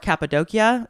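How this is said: It is pronounced the Turkish way. "I believe, is the Turkish way to say it"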